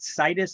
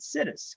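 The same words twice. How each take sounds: First: The first syllable does not sound like 'sit'. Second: The first syllable sounds like the word 'sit'. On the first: "I don't pronounce it situs" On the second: "I pronounce it situs. ... I'm gonna sit us right here"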